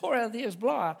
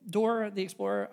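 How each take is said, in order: First: It is said in a Boston accent. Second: It is said in a general American accent.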